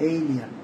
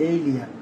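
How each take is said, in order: Both takes have the same delivery.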